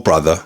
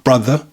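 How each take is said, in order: First: The final R sound is pronounced. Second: The final R sound is dropped. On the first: "or brother" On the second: "can become brother"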